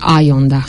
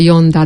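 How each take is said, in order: First: The name begins with an 'eye' sound. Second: The name begins with an 'ee' sound. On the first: This is how English speakers say the name. The speaker calls it wrong. "deci ei spun a Ionda" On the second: This is how the name is said in Romanian. The speaker calls it right. "Se pronunță Ionda"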